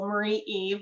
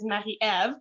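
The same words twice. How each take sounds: First: The name is said with English pronunciation. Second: The name is said with French pronunciation. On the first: The speaker calls it wrong. "people often go Marie Eve, ... doesn't sound as pretty as it does in French" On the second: The speaker calls it right. "in French, my name is Marie Eve"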